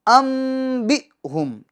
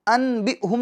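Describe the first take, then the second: First: The nasal before b is said as m. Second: The nasal before b is said as n. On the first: The speaker calls it right. "बल्कि अम बि हुम" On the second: The speaker calls it wrong. "अन बि हुम नहीं पढ़ेंगे"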